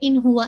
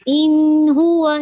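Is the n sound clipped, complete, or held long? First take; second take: clipped; held long. First: The n sound is clipped and unclear. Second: The n sound is held for a long time. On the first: "हम इसको ऐसे नहीं पढ़ सकते" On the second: "अब इसका मतलब ये नहीं कि आप होल्ड करें"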